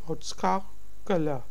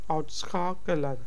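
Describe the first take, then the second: First: The final n sound is dropped. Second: The final n sound is dropped.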